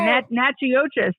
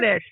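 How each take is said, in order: First: The name is said with an outsider's mispronunciation. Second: The name is said with the local pronunciation. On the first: The speaker calls it wrong. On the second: The speaker calls it right.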